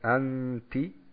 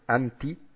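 First: The nasal n sound is drawn out longer. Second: The nasal n sound is short and clipped. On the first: The speaker calls it right. "diesen nasalen Ton ziehen sie ein bisschen in die Länge" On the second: The speaker calls it wrong. "sagen die Araber nicht anti"

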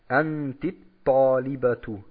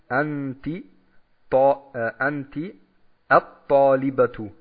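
First: The words run together, with the next consonant doubled. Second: The two words are said separately, each on its own. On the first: The speaker calls it right. "Jetzt verbinden wir es" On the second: The speaker calls it wrong. "so sollten wir es nicht sagen, wenn wir flüssig lesen"

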